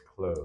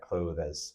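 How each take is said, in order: First: The th is dropped, leaving just an s. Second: A full th sound is said before the s. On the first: The speaker calls it right. "more of it just an S sound" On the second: The speaker calls it wrong. "It's not like clothes"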